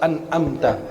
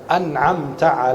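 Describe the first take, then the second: First: The middle consonant is a glottal stop. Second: The middle consonant is a throaty ain. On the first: The speaker calls it wrong. "banyak orang baca an'amta. Hati-hati, karena itu jadi hamzah" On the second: The speaker calls it right. "Itu ain"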